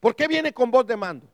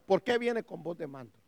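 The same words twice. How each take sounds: First: Raised, forceful rhetorical question; preacher's challenging question; insistent question. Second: Softer, lower repeat of a rhetorical question; hushed afterthought question; dropped-down question. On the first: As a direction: press the question on the congregation. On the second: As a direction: bring it down and let them ponder. Same question repeated much more quietly. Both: Real, not acted.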